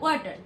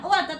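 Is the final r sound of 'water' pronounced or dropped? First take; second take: pronounced; dropped. First: The final r sound is clearly pronounced. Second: The final r sound is dropped entirely. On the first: The speaker calls it right. "T E আর, ওয়াটার" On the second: The speaker calls it wrong. "আর এর উচ্চারণটা কোথায় চলে গেল?"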